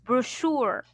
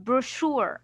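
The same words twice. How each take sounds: First: The middle sound is an sh sound. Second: The middle sound is an sh sound.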